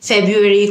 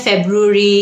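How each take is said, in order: First: "ফেব্রুয়ারি" as FEB-yoo-eri; American pronunciation. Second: "ফেব্রুয়ারি" as FEB-roo-ree; British pronunciation. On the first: Teacher recalls the confusing alternative, "ফেব্রুয়ারি" as FEB-yoo-eri. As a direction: yoo in place of roo in "ফেব্রুয়ারি". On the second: Teacher recalls the common confusion, "ফেব্রুয়ারি" as FEB-roo-ree. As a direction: br sounded in "ফেব্রুয়ারি". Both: Shown as a demonstration. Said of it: "একটা British একটা American".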